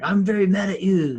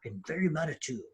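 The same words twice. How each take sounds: First: High, loud mocking parody of a protester; mocking a furious online protester, loud; mock angry ranting. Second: Softer, offhand parody of a protester; understated mocking of an outraged protester; mild mock quote. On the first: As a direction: ham it up like an outraged ranter. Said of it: "are like". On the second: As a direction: toss off the quote dryly. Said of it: "What's being applauded is".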